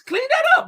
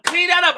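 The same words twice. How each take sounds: First: Mock high voice. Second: Said in the usual way. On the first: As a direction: jump much higher on a mocking repeat. Repeats it to Ice, mocking.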